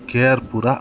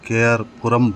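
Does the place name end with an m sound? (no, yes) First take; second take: no; yes. First: The name ends in a plain vowel sound. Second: The name ends with an added m sound. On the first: The speaker calls it right. "K R ಪುರ ಅಂತ ಸ್ಪಷ್ಟವಾಗಿ ಹೇಳಿ" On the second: The speaker calls it wrong. "K R ಪುರಂ ಬೇಡ"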